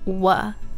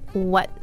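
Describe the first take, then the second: First: The final T sound is dropped. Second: The final T sound is pronounced. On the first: The speaker calls it wrong. "did not place our tongue on the roof of our mouth, it would sound like wuh" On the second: The speaker calls it right. "make sure that tongue goes up"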